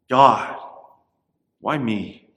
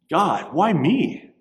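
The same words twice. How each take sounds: First: It sounds despairing and self-pitying. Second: It sounds amazed and grateful.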